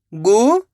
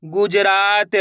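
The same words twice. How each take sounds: First: गुजरात split into four separate syllables. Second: Said in the usual way. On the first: Shown as a demonstration. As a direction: sound out गुजरात, pausing after each syllable. (गुजरात को एक-एक अक्षर अलग करके) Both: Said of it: "एक अक्षर का उच्चारण करके".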